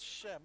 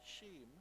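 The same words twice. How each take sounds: First: Shem with a short open e; corrected pronunciation of Shem. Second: Shem with a long, close vowel; mistaken pronunciation of Shem. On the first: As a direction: say Shem with the vowel of "hem". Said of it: "he corrected me and he said". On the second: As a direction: stretch the vowel in Shem towards "sheem". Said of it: "We've been saying". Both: Shown as a demonstration.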